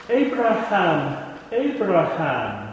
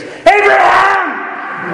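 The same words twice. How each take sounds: First: Slow, drawn-out calling of the name. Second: "Abraham!" yelled much higher and louder, stretched long; shouted name. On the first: Voice from heaven calling Abraham, slow and drawn out. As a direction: stretch each name out, unhurried. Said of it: "by the fact that the text repeats it twice". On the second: Heaven stops Abraham's knife with a drawn-out, very high, very loud yell. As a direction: bellow "Abraham!" as an urgent cry from heaven. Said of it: "So exclamation point". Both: Shown as a demonstration.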